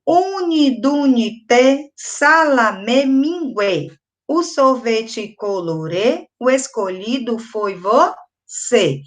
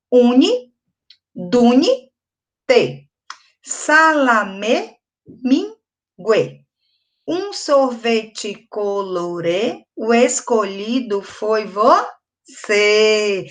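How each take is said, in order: First: Slow, measured chant of a counting rhyme; reading a rhyme aloud. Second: "Uni, duni, te" in slow separate chunks with pauses; separated into syllables. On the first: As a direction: read it slowly for children to join in. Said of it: "Vou ler pra vocês agora". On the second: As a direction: pause between the pieces, "Uni, duni, te", dragging each syllable. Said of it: "ele já vem separado". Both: Shown as a demonstration.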